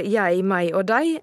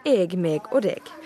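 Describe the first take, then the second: First: "jeg, meg og deg" as "yai, mai og dai"; Bokmål pronunciation. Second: "jeg, meg og deg" as "eg, meg og deg", g sounded; Nynorsk pronunciation. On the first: Reporter showing what kindergarteners hear, "jeg, meg og deg" with ai-diphthongs. Bokmål pronouns contrasted with Nynorsk. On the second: Reporter showing Nynorsk pronouns, "jeg, meg og deg" as "eg, meg, deg" with sounded g. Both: Shown as a demonstration.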